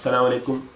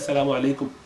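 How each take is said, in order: First: The opening 'as-' is dropped, starting at 'salam'. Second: The opening 'as-' and doubled s are clearly said. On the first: The speaker calls it wrong. "क्या क्या लोग बोलते हैं, बिल्कुल गलत है" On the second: The speaker calls it right. "थोड़ा सा सीन पर और अलिफ लगा के बोला जाए"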